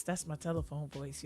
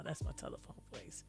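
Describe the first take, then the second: First: Said in the usual way. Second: Breathy stage whisper. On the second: Shown as a demonstration. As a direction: whisper it as a playful aside. Repeats line as a whisper.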